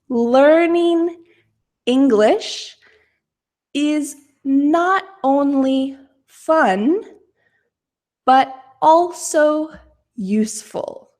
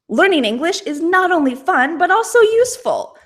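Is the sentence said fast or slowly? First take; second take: slowly; fast. First: The sentence is spoken at a slow pace. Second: The sentence is spoken at a fast pace. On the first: "I'm going to say this sentence slowly" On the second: "Let's say it quickly"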